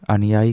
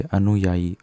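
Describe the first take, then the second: First: अनुयायी said as "anyaai"; "an-yaai" for अनुयायी, as the error; wrong, missing u. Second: अनुयायी said as "anuyaayi"; "a-nu-yaa-yi" for अनुयायी; correct nu sound. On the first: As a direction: drop the u in अनुयायी. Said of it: "कुछ नहीं होता". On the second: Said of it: "ये सही तरीका है". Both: Shown as a demonstration.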